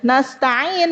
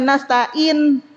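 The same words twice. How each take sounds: First: The middle consonant is a throaty ain. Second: The middle consonant is a plain glottal stop. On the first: The speaker calls it right. "Nasta'in bukan nasta'in" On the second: The speaker calls it wrong. "udah merubah ain jadi hamzah"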